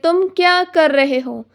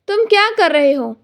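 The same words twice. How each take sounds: First: It is said slowly, with gaps between words. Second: It is said fast, in one smooth breath. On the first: This is not how people really talk. The speaker calls it wrong. "लेकिन real life में हम ऐसा नहीं बोलते" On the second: This is how people really talk. The speaker calls it right. "Fast और fluently बोलने की कोशिश होती है"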